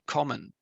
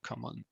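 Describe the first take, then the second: First: The stress is on the first syllable. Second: The stress is on the second syllable. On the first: The speaker calls it right. "it should be common" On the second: The speaker calls it wrong. "rather than common"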